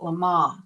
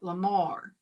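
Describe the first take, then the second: First: The word ends without an R sound. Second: The word ends with a clear R sound. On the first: "they call it Lamar. They don't pronounce the R the way we do" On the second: "Americans say it Lamar"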